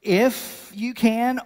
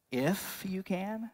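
First: "If you can" louder, higher, very slow, "can" rising; emphatic echo. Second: Slow, quiet disbelieving "If you can?" with a rising end; incredulous question. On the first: Jesus throwing the father's words back, loud and slow. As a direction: hammer each word of "If you can". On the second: Jesus questioning the father's doubt, quiet and incredulous. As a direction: echo his doubt back softly, drawn out. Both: Retold or imitated. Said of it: "I just imagine Jesus is looking around like".

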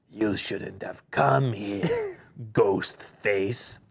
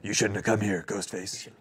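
First: Slow, low gruff cultist; Will Arnett voice. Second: Low, menacing cultist growl; Will Arnett voice. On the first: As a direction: drag the words out menacingly. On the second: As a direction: threaten them in a low voice. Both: Acted. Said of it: "you do a pretty good Will Arnett".

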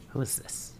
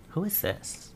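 First: Whisper. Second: Said in the usual way. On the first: Real, not acted. Repeats question in whisper.

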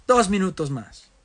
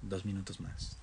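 First: "¡Dos minutos más!" exclamado, más fuerte y alto; exclamación. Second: Said in the usual way. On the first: Real, not acted. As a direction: anunciarlo con énfasis alegre. Repite frase, la segunda gritada. (exclamando "¡Dos minutos más!")

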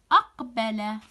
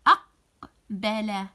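First: "أقبل" joined up, loud first syllable; "أقبل" without a break, firm start; word said whole. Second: "أقبل" slow, split after a loud first syllable; slow syllable-by-syllable "أقبل", loud start; word sounded in parts. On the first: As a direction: say "أقبل" in one go, clearly. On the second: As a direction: break "أقبل" into "أق", pause, "بل". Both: Shown as a demonstration. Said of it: "أردد الكلمات منتبها إلى".

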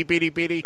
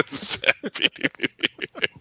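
First: Sad. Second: Sighing, barely voiced and slow; breathy and mournful; sad. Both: Shown as a demonstration. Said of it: "Give us a sad Beady".

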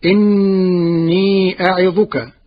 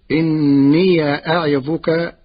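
First: Slow, chanted إني أعظك; Quran recitation. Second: إني read with the ya opened, as inniya, slowly; Warsh reading, open ya. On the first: Acted. Teacher reciting the verse to his class, slow and chanted. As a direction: intone the verse slowly like tajweed. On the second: Shown as a demonstration. Teacher showing his students the Warsh reading of إني with the ya opened. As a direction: stress إني with a doubled nun and an open ya. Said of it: "بفتح ياء الإضافة".

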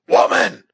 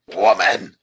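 First: Hoarse, very loud, high outburst; hoarse shout. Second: High, loud call with falling tune; commanding shout. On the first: Huron chief repeating his demand to the captive, hoarse shout. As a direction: shout it hoarsely, at full force. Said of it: "repeated Makwa hoarsely". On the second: Huron chief to his captive, a commanding shout. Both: A narrator's reading.

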